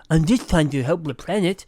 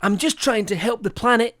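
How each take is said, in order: First: Trying said as twying, r turned to w; says w for r. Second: Said in the usual way. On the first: Retold or imitated. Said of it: "He can't pronounce his R's". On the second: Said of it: "let me do it in his voice".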